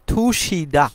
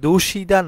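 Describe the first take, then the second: First: The word begins with an aspirated t sound. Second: The word begins with a voiced d sound. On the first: The speaker calls it right. "সঠিক উচ্চারণ হবে থুসিদা" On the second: The speaker calls it wrong. "দুশিদা না বলে"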